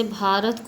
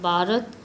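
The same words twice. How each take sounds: First: Said in the usual way. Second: भारत with b for bh, like baarat; regional pronunciation. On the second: Shown as a demonstration. Teacher showing Kashmiri and southern speech, baarat for भारत. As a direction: drop the breath from the bh in भारत. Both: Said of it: "भ का उच्चारण ब की तरह".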